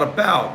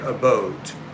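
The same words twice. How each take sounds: First: It is said with a plain General American vowel. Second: It is said with a Minnesotan, Canadian-like vowel. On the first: "not about" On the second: "they say about"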